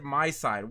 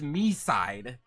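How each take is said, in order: First: The first syllable sounds like 'my'. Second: The first syllable sounds like 'me'. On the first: The speaker calls it wrong. "Why would you pronounce it My Side?" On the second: The speaker calls it right. "It's Me Side"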